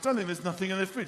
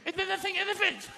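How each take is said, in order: First: It is said in his normal voice. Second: It is said in a mocking imitation.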